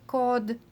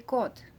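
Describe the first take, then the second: First: The final consonant is a voiced d. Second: The final consonant is a voiceless t. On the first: The speaker calls it wrong. "instead of cod" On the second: The speaker calls it right. "we would say cod"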